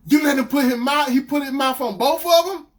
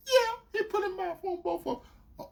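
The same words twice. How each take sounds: First: Loud, high incredulous rant; outraged disbelief. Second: High, small mimicked voice; sheepish girlfriend. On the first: Retold or imitated. Boyfriend confronting her confession, outraged. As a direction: repeat it back, appalled. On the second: Girlfriend confirming it to him, imitated meekly. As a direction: admit it softly in a high voice.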